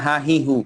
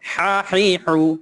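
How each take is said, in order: First: The h sound is light and plain. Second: The h sound is thick, from deep in the throat. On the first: The speaker calls it wrong. "আমরা যদি বলি হাহিহু হবে না" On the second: The speaker calls it right. "হায়ের উচ্চারণ এরকম আহ, মোটা হবে"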